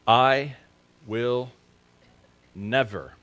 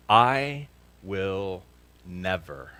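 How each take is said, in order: First: "I", "will", "never" each set apart by pauses; vow spoken word by word. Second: Drawn-out vow. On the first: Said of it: "I will never, spoken word by word". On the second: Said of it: "fill in the blank". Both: Shown as a demonstration.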